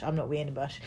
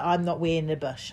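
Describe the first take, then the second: First: Softer, lower repeat; quieter. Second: Said in the usual way. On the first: Retold or imitated. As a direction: drop it to a mutter. Repeated refusal.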